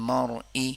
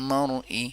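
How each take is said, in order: No difference in how they are said.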